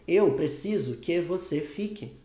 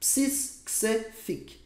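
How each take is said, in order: First: Every word is pronounced fully and separately. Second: Words are shortened and run together. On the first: The speaker calls it wrong. "como se tivesse um brasileiro falando assim" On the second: The speaker calls it right. "você vai falar assim, ó"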